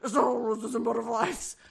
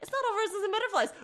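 First: It is said in a demonic voice. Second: It is said in a normal voice.

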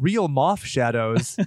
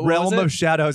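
First: The words are heard as real moth shadows. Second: The words are heard as realm of shadows. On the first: The speaker calls it wrong. "mispronounce something on purpose" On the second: The speaker calls it right. "There's the realm of shadows"

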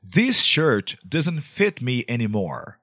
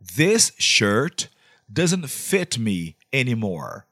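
First: It is said at normal speed. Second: It is said more slowly.

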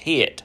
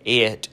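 First: The word begins with an H sound. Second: The word begins with a vowel sound.

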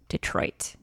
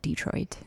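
First: The stress is on the second syllable. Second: The stress is on the first syllable. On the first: This is how people from that area say it. The speaker calls it right. "Emphasis on the Troit" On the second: This is how people from Massachusetts say it. The speaker calls it wrong. "D, the emphasis on the D"

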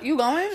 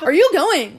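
First: The question sounds relaxed and casual. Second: The question sounds overeager and too inquisitive.

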